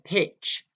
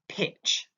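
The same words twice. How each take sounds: First: The T sound in the middle is dropped. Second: The T sound in the middle is pronounced.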